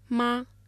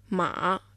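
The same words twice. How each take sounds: First: It is said with the first tone. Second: It is said with the third tone. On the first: It means mother. "Μα με τον πρώτο τόνο" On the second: It means horse. "Μα με τον τρίτο τόνο"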